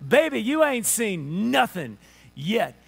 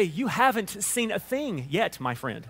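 First: Slow, emphatic Alabama drawl; Southern drawl. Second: Slow, over-proper non-Alabama phrasing; mock non-Southern speech. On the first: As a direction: draw it out in a Southern accent. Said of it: "that's how we say it in Alabama". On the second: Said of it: "We don't say". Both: Shown as a demonstration.

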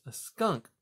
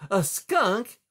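First: Said in the usual way. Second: Loud, high, appalled echo; shocked. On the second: Acted. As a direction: exclaim it in disbelief. Lily shocked at the news.

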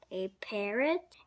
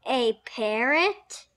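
First: Questioning, rising at the end; mild surprise. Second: Loud, slow, soaring rise; astonished question. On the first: Class seeing Polly, mildly surprised question. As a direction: ask it in measured disbelief. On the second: Class seeing Polly, loudly astonished question. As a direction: stretch it out in loud disbelief. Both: A narrator's reading.

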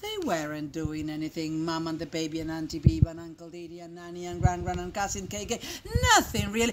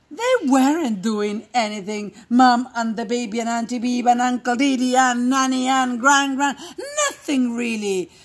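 First: Low, soft, rapid murmur; quick, hushed, suspenseful narration; hushed refrain. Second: Loud storytelling refrain with a rattled-off list; firm, loud narration, evenly chanted; full-voiced refrain. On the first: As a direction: rattle off the list quietly on a low note. Same refrain hushed before last arrival. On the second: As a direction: reel off the names in a strong, steady voice. Refrain, contrasted with later hushed take. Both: A narrator's reading.

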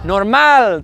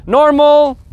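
First: Normal as "nor-MAL"; Spanish normal with full final "al". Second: Normal as "NOR-mul"; English normal with a weak ending. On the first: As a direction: lean on the end of normal, Spanish style. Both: Shown as a demonstration. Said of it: "end with al".

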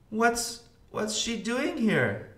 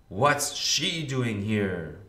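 First: High-pitched, startled question; surprised question. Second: Slow question leaning on "she"; pointed question. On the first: Buster spotting D W at the club, surprised. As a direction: ask it high and taken aback. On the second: Francine pointing at D W, stretching "she" pointedly. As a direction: draw out "she" in "What's she doing here?". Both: A narrator's reading.

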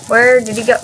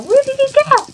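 First: Said in the usual way. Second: Mock high squeaky question; imitating own confused self. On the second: Gamer mocking her own earlier confusion, squeaky and high. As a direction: replay your own clueless panic, pitched way up. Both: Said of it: "I was all".

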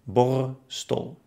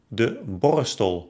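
First: Bor-stel, two separate beats; borstel by syllables. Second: Said in the usual way. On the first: Shown as a demonstration. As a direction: pause after r in borstel. (borstel in zwei Silben getrennt) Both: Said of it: "trenne dann das Wort".

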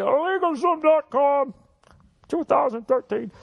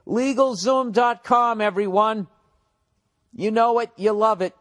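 First: Put-on slow, high old man croak. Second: Announcer hype. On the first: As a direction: answer like a proud old man. Old man answers kid. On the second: Acted. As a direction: sell it like a game-show host. Hyped ad read opener.

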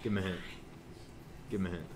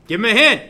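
First: Soft plea. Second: Hint! much louder and higher, punched; loud demand. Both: Acted. Teacher asks repeatedly, building.

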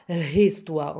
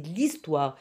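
First: "l'histoire" with the H sounded aloud; H wrongly sounded. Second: "l'histoire" with the H left silent. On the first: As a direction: say "l'histoire" wrongly, voicing the silent H. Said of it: "On dit pas l'histoire". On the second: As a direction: glide from L straight into the vowel of "l'histoire". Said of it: "le H dans la langue française". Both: Shown as a demonstration.

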